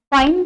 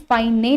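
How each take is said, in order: First: Said in the usual way. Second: फाइने, final e voiced as "ay"; wrong reading of फाइन. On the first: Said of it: "फिर से पढ़कर बताती हूँ". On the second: Shown as a demonstration. Teacher contrasting the misreading for students, फाइने with its silent e sounded. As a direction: add a second syllable, फाइ-ने. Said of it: "फाइने नहीं पढ़ते हैं".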